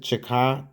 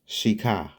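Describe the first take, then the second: First: The name is said as 'Chicot'. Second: The name is said as 'Shika'. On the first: The speaker calls it wrong. "Some some pronounce it Chicot County" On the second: The speaker calls it right. "the correct pronunciation is Shika"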